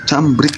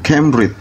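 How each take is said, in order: First: It is read letter by letter, Indonesian-style. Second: It is pronounced the English way. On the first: "Kalau saya menggunakan bahasa Indonesia bacanya begitu" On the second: "ini kan bahasa Inggris"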